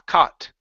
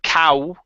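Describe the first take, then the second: First: The vowel sounds like 'ah'. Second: The vowel sounds like 'ow'. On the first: The speaker calls it right. "it's only an ah" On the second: The speaker calls it wrong. "instead of cow"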